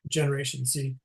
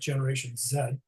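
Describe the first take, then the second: First: The letter Z is said as zee. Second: The letter Z is said as zed, Canadian-style.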